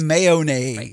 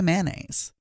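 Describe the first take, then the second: First: It is said with a non-Southern pronunciation. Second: It is said with a Southern pronunciation.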